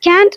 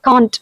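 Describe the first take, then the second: First: The vowel is a flat front 'a' sound. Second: The vowel is a long open back 'ah'. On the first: "it's an American pronunciation" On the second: "பிரிட்டிஷில் வந்து நம்ம காண்ட் அப்படின்னு சொல்லுவோம்"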